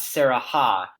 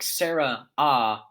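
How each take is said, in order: First: The name splits as Sara plus ha, with h. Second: The name splits as Sarah plus ah, no h. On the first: The speaker calls it right. "not Sarah ha" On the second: The speaker calls it wrong. "I was dividing it based on like Sarah ah"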